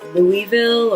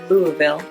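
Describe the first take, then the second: First: All the written sounds of the name are said. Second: Several sounds are dropped, making it short and smooth. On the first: This is how an outsider assumes it is said. The speaker calls it wrong. "what I thought was Louisville" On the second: This is how locals say it. The speaker calls it right. "take out a lot of those letters"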